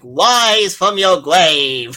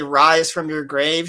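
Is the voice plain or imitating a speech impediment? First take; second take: impediment; plain. First: It imitates a voice actor's speech impediment. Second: It is said in a plain, normal voice.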